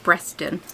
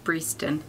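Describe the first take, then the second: First: The first vowel is short, as in 'bed'. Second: The first vowel is long, as in 'bee'. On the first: The speaker calls it wrong. "every time I look at her address I pronounce it Breston" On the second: The speaker calls it right. "I've only just learnt it's pronounced Breeston"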